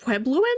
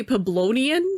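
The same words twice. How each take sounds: First: Puebloan said right, as pweb-LOH-an; offering the correct Puebloan; correct pronunciation. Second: Peblonian said as /pʰæbloʊ̃niən/, the wrong word; echoing the guide's Peblonian with disbelief; mispronunciation quoted. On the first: Player correcting the guide with the proper Puebloan. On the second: Player mocking the tour guide's Peblonian mispronunciation. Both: Shown as a demonstration. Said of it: "Did he just say Peblonian?".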